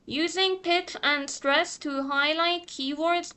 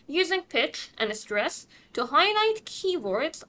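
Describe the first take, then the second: First: The pitch stays flat and robotic throughout. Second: The pitch moves up and down naturally. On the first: The speaker calls it wrong. "جوری که اکثر دانش آموزا میان و این جمله رو میگن" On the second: The speaker calls it right. "این یه حالت خیلی نورمال و نچراله برای خوندن این جمله"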